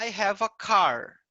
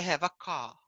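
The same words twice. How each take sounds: First: The final R in car is pronounced. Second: The final R in car is dropped. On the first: This is how an American says it. "O americano vai falar" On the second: This is how a British speaker says it. "O britânico vai falar ... Eles não vão falar o R no final das palavras"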